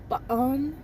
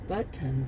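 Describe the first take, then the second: First: The T sound in the middle is dropped. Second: The T sound in the middle is pronounced.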